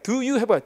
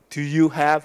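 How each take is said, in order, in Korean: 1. do는 약하고, have가 가장 강해요. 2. 세 단어 모두 강세가 거의 같아요. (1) "do는 약하게, you는 더, have는 세게 해야 돼" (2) "do you have가 아니라"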